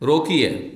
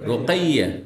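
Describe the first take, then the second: First: The middle vowel is a plain 'i'. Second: The middle vowel is an 'ai' diphthong. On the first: The speaker calls it wrong. "রোকিয়া নাম না" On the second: The speaker calls it right. "কি নাম?"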